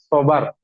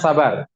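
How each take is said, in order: First: The first vowel sounds like an 'o'. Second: The first vowel is an open 'a' sound. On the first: This is the original Arabic form. "di bahasa yang benar ya, sobar gitu" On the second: This is the everyday Indonesian form. "jadi bahasa Indonesia namanya sabar, pakai A"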